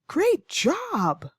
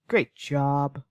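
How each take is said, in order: First: It is said in an excited, encouraging tone. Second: It is said in a sarcastic, negative tone. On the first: The praise is sincere. "my tone is very excited, very encouraging" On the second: The praise is not meant; it puts the person down. "I'm going to add a sarcastic tone"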